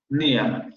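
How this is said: The final r sound is dropped entirely. "ese vocal vibrante no se va a pronunciar"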